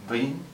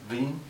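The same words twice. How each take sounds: First: The first sound blends V and W together. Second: The first sound blends V and W together.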